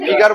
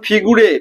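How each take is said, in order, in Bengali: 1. শব্দটি দুটি সিলেবলে বলা হয়, শেষ হয় 'ar' দিয়ে। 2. শব্দটি তিনটি সিলেবলে বলা হয়, শেষ হয় 'ray' দিয়ে। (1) "এটাকে ফিগার বলে।" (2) "ফিগুরে শুনেছিস তোরা?"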